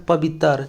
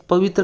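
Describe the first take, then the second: First: "पवित्र" as pa-bit-tar, slow; tar for tra. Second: Said in the usual way. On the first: Shown as a demonstration. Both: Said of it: "तर की तरह होता है".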